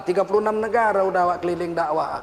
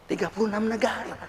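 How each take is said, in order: First: Said in the usual way. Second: Much softer, murmured repeat; quiet echo. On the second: Real, not acted. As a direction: let the boast fall to a soft echo.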